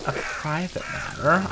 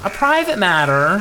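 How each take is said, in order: First: Drawn-out, puzzled "A private matter?"; slow puzzled reading. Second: "A private matter?" louder, rising on "private"; surprised repeat. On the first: Reading the line slowly, puzzled at first. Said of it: "repeats line, puzzled". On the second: Echoing the character's question in louder mock surprise. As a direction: throw it back in mock disbelief. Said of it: "repeats line, louder, rising". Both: Pretend.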